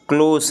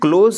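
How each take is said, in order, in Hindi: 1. शब्द एक फुफकार वाली s ध्वनि से खत्म होता है। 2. शब्द एक गूँजती हुई z ध्वनि से खत्म होता है। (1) "बल्कि क्लोज है ... स वाला फीलिंग है" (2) "क्लोज नहीं है ... जा नहीं है"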